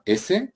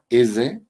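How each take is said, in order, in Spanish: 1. La s se pronuncia sin voz. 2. La s se pronuncia con voz. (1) "sería por un lado la sorda" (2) "Frente a la sonora"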